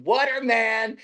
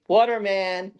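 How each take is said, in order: First: High drawn-out repeated call; calling out again. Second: High drawn-out call of a name. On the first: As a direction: keep calling the name, insistent. Man calling again at the gate. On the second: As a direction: call the name across the yard. Man calling at the gate. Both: Retold or imitated.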